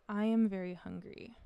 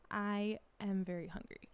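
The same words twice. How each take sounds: First: Said in the usual way. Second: Spanish accent with a dropped jaw. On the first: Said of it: "Like, if I said". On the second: Shown as a demonstration. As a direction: open every vowel wide, Spanish accent. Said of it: "a Spanish speaker who is learning English will probably say".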